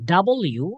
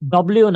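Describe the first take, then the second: First: The letter name is said in full syllables. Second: The letter name is said clipped and squeezed together. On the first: The speaker calls it right. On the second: The speaker calls it wrong.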